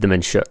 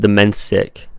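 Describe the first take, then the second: First: The name is said with a Croatian pronunciation. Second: The name is said with an English pronunciation. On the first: "the Croatian pronunciation is Demenshuk" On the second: "My last name is pronounced Demensic"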